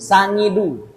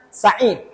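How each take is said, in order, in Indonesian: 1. Ada bunyi sengau "ng" di tengah. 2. Ada bunyi konsonan tenggorokan di tengah. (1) "karena dia orang Jawa"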